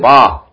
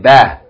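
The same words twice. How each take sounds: First: The vowel sounds heavy and pulled back. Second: The vowel is a plain open ah sound. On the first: The speaker calls it wrong. "Don't say ba" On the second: The speaker calls it right. "say ba"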